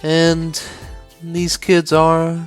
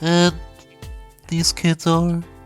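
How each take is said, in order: First: The voice sounds only slightly nasal. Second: The voice sounds fully pinched and nasal. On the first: "just a little bit snotty" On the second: "close the nose all the way"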